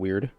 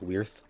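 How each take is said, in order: First: The word ends with a plain d sound. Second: The word ends with a th sound. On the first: The speaker calls it wrong. "did I say Bythol Weird incorrectly?" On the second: The speaker calls it right. "the D's would be a, like a T H sound"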